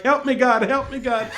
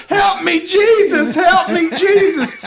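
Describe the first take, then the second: First: Imitated plea for help, barely raised; half-hearted imitation of a cry to God; mild mock plea. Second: High, loud shriek for help; mock screaming. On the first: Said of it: "She starts screaming in Spanish as she's going". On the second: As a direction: imitate a frantic woman screaming to heaven. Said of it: "then she starts screaming".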